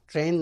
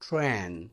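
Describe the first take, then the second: First: The t is plain, with no puff of air. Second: The t has a strong puff of air. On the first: The speaker calls it wrong. "ट्रेन नहीं है" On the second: The speaker calls it right. "थ है, ट नहीं है"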